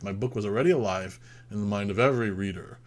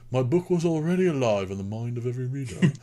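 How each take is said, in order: First: It is read in the speaker's normal voice. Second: It is said in a put-on old man's voice.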